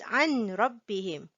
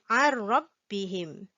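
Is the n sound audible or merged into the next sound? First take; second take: audible; merged. First: The n sound is clearly heard before r. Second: The n sound merges into the r. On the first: The speaker calls it wrong. "We do not pronounce it as" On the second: The speaker calls it right. "We silent the nun sound, the n sound. We pronounce it"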